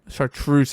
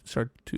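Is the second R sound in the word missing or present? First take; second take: present; missing. First: The second R sound is pronounced. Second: The second R sound is left out. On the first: The speaker calls it right. "There's an R in there" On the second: The speaker calls it wrong. "I can never pronounce that word"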